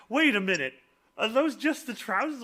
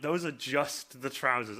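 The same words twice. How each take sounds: First: High-pitched puzzled question; rising, incredulous query; mock disbelief. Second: Slower, falling statement at usual pitch; measured, landing as a statement; dawning realisation. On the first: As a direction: imitate someone doing a double take. People's disbelief at costume, acted. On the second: Retold or imitated. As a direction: state it slowly as it sinks in. Same words repeated as realisation.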